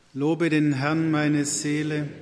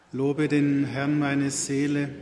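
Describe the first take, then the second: No difference in how they are said.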